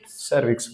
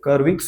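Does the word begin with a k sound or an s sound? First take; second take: s sound; k sound. First: The word begins with an s sound. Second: The word begins with a k sound. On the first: The speaker calls it right. "सर्विक्स बोलते हैं" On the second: The speaker calls it wrong. "कर्विक्स नहीं बोलते"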